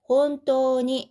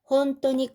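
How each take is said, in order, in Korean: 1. 'ni' 앞의 모음은 길게 말합니다. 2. 'ni' 앞의 모음은 짧게 말합니다. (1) "원래는 혼또니 이렇게 장음이 있죠" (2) "회화체에서는 장음을 좀 생략하고 그냥 짧게 말하기도 합니다"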